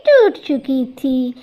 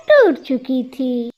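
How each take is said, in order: Both takes have the same delivery.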